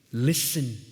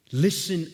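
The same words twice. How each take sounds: First: Said in the usual way. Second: "listen" said again louder, insistent; pleading repeat. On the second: Acted. Nehemiah begging God to hear, louder insistent "listen". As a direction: press "listen" harder on the repeat. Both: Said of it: "Listen to what he says".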